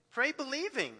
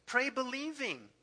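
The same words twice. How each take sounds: The two takes are said the same way.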